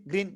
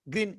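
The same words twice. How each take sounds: The two takes are said the same way.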